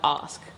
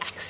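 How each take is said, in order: First: The word ends with an 'sk' sound. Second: The word ends with a 'ks' sound. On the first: The speaker calls it right. "And I'll be like, ask" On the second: The speaker calls it wrong. "when people say ax instead of ask"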